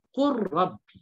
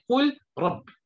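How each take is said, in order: First: The l sound is merged into the r. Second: The l sound is pronounced clearly before r. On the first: The speaker calls it right. "maka diidghamkan" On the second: The speaker calls it wrong. "Bukannya qul rabbi"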